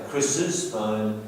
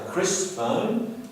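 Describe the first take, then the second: First: Said in the usual way. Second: "Chris'" said with no extra syllable; slow demo of the wrong "Chris' phone"; mock wrong form. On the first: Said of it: "we say Chris's phone". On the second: Shown as a demonstration. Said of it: "we don't say Chris' phone".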